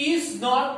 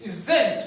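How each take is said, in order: First: Is not, two separate words; is not split. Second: Isn't, said as one word. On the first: Teacher contrasts split is not with isn't. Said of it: "pronounce as is not". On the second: Teacher models the contraction isn't for the class. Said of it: "pronounce as isn't". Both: Shown as a demonstration.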